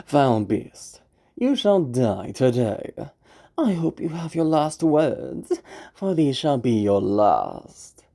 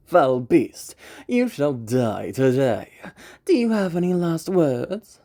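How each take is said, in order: First: Swagger that's hollow inside; false bravado. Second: Confident warrior voice; dominant hunter. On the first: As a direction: overconfident hunter. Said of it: "why don't we see what that type of crumbling". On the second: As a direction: lord it over the beast, full of swagger. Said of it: "To give a very easy example". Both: Shown as a demonstration.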